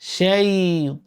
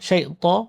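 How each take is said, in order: First: The 'ay' glide is held with continuous voice. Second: The 'ay' glide is clipped short and quick. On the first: The speaker calls it right. "পরিপূর্ণ রূপে আদায় করতে হবে যেমন" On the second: The speaker calls it wrong. "আপনি যদি দ্রুত বলেন"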